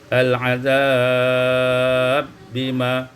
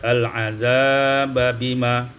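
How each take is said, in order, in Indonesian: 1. Kedua bunyi b menyatu menjadi satu b bertasydid. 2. Kedua bunyi b dibaca terpisah.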